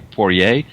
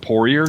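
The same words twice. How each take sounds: First: The name is pronounced the French way. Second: The name is pronounced the English way. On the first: "he pronounced it kind of more the French way" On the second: "our families just kind of anglicized it"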